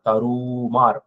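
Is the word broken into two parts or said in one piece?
one piece. The word is said in one piece. The speaker calls it right. "அப்படின்னு ஒலிக்கணும்"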